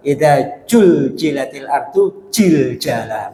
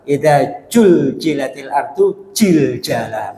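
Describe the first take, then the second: First: It is said in a Javanese accent. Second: It is said in a Javanese accent.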